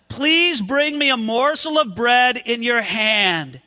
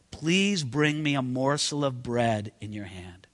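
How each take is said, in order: First: Said in the usual way. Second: Much lower and softer, gentle plea; kind request. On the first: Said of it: "I would want to know the tone in Elijah's voice". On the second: Shown as a demonstration. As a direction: ask it kindly, almost under the breath. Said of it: "I hope it was kind".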